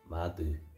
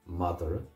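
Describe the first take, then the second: First: It is said with a final u, Ulster-style. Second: It is said with an extra vowel, Munster-style.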